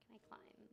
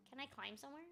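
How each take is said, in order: First: Unvoiced whispered question; whispering. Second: Said in the usual way. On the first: Real, not acted. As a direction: whisper it to yourself. Repeats question, second one whispered.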